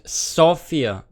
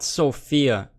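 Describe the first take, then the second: First: The name is said the native Bulgarian way. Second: The name is said like the English female name. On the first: The speaker calls it right. "It's called Sofia" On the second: The speaker calls it wrong. "Every English-speaking person pronounces it as a female name"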